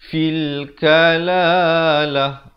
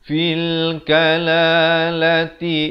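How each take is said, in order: First: The phrase stops, ending with an h sound. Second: The phrase continues on, ending with a t sound. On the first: The reciter pauses at this word. "Ta marbutah kalau waqaf jadi ha" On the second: The reciter joins it to the next word. "kalau sambung jadi fil kalalati inim"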